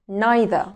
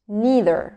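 First: It is said with a British accent. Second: It is said with an American accent. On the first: "هننطق الأول البريتش أكسنت" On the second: "وبعدين الأمريكان أكسنت"

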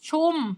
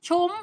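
First: The word is said on a level mid tone. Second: The word is said with a high tone. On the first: "แต่ถ้าใส่เสียงสามัญก็คือ" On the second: "รูปโทเสียงตรี"

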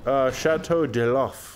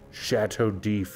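First: Every written letter of the name is sounded out. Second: Some written letters are skipped in the name. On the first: "Like I see a French word. I'm like, oh yeah" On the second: "you're skipping letters, but it's like that's just how they pronounce it"

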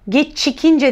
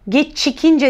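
First: The middle consonant is a hard ch sound. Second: The same.

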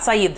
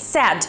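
First: It sounds like a man's name. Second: It sounds close to the word 'sad'. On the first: The speaker calls it wrong. "parcă e un bărbat" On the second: The speaker calls it right. "Deci e said la trecut. ... Tare similar cu adjectivul sad"

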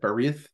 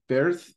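First: The middle vowel is kept, giving two syllables. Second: The middle vowel is dropped, like one syllable. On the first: "I try to get the I in there, that Berith" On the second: "I think I pronounce it Berith most of the time"

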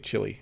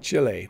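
First: Chile is said with the common English pronunciation. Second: Chile is said unlike the common English pronunciation.

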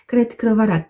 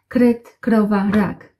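First: The words are said at a fast pace. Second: The words are said at a normal pace.

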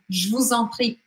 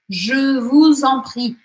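First: The phrase is said quickly and run together. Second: The phrase is said slowly and carefully.

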